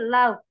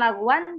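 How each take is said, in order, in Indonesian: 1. Akhiran vokal terakhir dihilangkan. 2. Akhiran vokal terakhir diucapkan. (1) "harokat terakhirnya dia tidak disebutkan, jadi kayak lau" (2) "bukan laguan"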